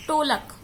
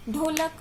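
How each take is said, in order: First: "टोलक" with unvoiced ṭ in place of ḍh; incorrect pronunciation. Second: Said in the usual way. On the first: Shown as a demonstration. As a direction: open "टोलक" on a hard ṭ as a Punjabi slip. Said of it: "अशुद्ध शब्द क्या है". ("टोलक" में ढ की जगह ट का गलत उच्चारण) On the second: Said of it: "शुद्ध शब्द है".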